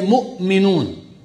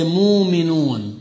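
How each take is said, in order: First: A glottal catch is heard after the first syllable. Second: No glottal catch is heard after the first syllable. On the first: This is how one tribe pronounced it. "Quraysh would say mu'minun" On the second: This is how another tribe pronounced it. "they never used to spell or to pronounce the Hamza"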